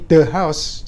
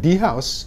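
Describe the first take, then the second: First: 'The' has a short, weak 'uh' vowel. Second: 'The' has a long 'ee' vowel. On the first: The speaker calls it right. "house langsung ini bunyi mati" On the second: The speaker calls it wrong. "jangan the house ya"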